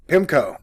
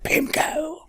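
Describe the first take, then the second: First: Said in the usual way. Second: "pimco" softer and squeakily high, rising at the end; popping-mic demo. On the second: Shown as a demonstration. Host testing the exploding word on the mic, high soft "pimco". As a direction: say "pimco" high and light, lifting the ending. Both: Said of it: "the word is, like, exploding in the mic".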